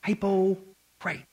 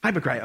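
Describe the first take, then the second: First: Slow, drawn-out Southern "hypocrite"; the word "hypocrite" drawled slowly in a Southern way; Southern accent. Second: Said in the usual way. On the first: Retold or imitated. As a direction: stretch "hypocrite" like a Southern preacher. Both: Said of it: "as they would say down south".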